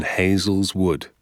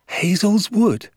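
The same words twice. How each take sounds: First: Said in the usual way. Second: Very high, drawn-out disbelief; loud, slow, high-pitched amazement; astonished cry. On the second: A narrator's reading. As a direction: echo it as a shocked child. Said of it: "I cried".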